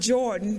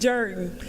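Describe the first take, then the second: First: It uses the common, general pronunciation. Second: It uses the local Columbus pronunciation. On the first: This is how outsiders say the name. "you might pronounce it Jordan" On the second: This is how locals say the name. "in Columbus we pronounce it Jordan"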